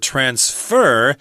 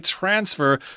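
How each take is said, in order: First: The stress is on the second syllable. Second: The stress is on the first syllable. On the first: It is used as a verb. "the accent on the second syllable" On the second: It is used as a noun. "a lot of people just say transfer for both the noun and the verb"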